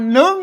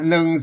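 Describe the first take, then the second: First: The syllable is said on a high tone. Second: The syllable is said on a level mid tone. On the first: "อ่านหนึ่งนะเสียงตีนะ" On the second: "หนึ่งเสียงสามัญ"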